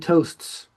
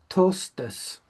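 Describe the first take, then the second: First: The word is said as one syllable. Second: The word is said as two syllables. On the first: "we say toasts" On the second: "they tended to pronounce it toastes in two uh, syllables"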